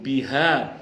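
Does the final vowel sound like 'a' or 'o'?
a. The final vowel is an open a sound.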